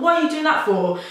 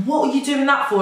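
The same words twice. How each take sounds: First: Much higher, more indignant repeat of What; retold annoyance, pitched up. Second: Higher, indignant retold question; mock indignant demand; retold annoyance. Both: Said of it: "I got really pissed off".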